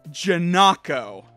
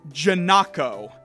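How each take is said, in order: No difference in how they are said.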